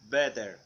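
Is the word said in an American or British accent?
American. The t sounds like a soft d. "American better"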